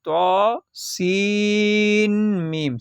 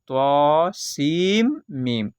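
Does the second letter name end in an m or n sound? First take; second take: n sound; m sound. First: The second name ends with a clear n sound. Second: The n merges into m, giving seem meem. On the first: The speaker calls it wrong. "सीन की जो लास्ट में नून आ रही उस नून को नहीं पढ़ना है" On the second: The speaker calls it right. "सीम करना है, सीन नहीं करना है"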